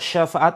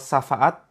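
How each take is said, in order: First: The word begins with an 'sh' sound. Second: The word begins with a plain 's' sound. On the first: It means help or intercession. The speaker calls it right. "Kalau syafaat ini adalah pertolongan" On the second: It means a slap. The speaker calls it wrong. "Kalau syafaat ini adalah tempelengan"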